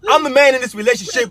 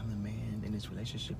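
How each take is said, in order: First: It is yelled loudly. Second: It is said softly and calmly.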